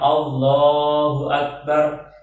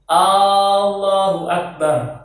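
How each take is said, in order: First: The opening vowel of Allah is kept short. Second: The opening vowel of Allah is drawn out long. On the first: The speaker calls it right. "Yang dipanjangkan adalahnya Allahu Akbar" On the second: The speaker calls it wrong. "tidak boleh, tidak boleh dipanjangkan"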